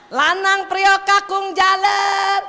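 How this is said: The names are called angrily.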